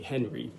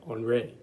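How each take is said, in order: First: The name is said with English sounds. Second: The name is said with French sounds. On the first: "That's actually Henry" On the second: "the French say, uh, pronounce it Henri"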